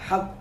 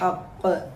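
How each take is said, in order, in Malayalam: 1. അവസാന വ്യഞ്ജനം പ്രതിധ്വനിയില്ലാതെ പെട്ടെന്ന് നിൽക്കുന്നു. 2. അവസാന വ്യഞ്ജനം അനുരണനമുള്ള പ്രതിധ്വനിക്കുന്ന മുഴക്കത്തോടെ അവസാനിക്കുന്നു. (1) "ഹഖ് എന്ന് നിർത്താതെ" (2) "ഒന്ന് മുഴക്കി തന്നെ നിർത്തുക"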